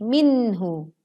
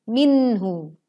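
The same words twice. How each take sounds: The two takes are said the same way.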